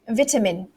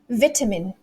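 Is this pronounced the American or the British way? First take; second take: British; British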